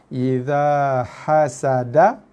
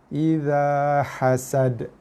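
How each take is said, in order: First: The phrase ends with a final vowel sound. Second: The phrase ends on a consonant, vowel dropped. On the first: The reading continues without stopping. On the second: The reader stops at this point.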